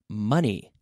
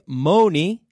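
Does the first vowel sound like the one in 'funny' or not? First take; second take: like funny; not like. First: The first vowel sounds like the one in 'funny'. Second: The first vowel does not sound like 'funny'. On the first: The speaker calls it right. "but please, money" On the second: The speaker calls it wrong. "Do not say money"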